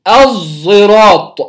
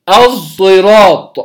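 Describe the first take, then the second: No difference in how they are said.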